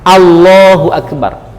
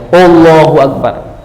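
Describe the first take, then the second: First: The first vowel sounds like an 'a'. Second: The first vowel sounds like an 'o'. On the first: The speaker calls it right. "Yang benar adalah A" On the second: The speaker calls it wrong. "Jadi dimulai dari O"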